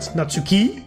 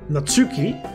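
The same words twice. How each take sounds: First: The stress is on the last syllable. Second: The stress is on the middle syllable. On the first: "put it at the end" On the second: "putting the emphasis on the U"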